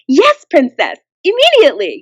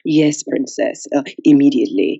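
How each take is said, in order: First: It sounds bright, bubbly and eager. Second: It sounds formal, dignified and composed. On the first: An eager young assistant is speaking. "the young female was like a very perky assistant" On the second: A refined older servant is speaking. "the older European man was a very sophisticated servant"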